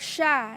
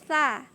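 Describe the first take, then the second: First: The consonant is a hushing sh sound. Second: The consonant is a lisped th sound. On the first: The speaker calls it wrong. "itu lebih fatal lagi kesalahannya karena itu sya meringis" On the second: The speaker calls it right. "Jadi yang benar itu tha"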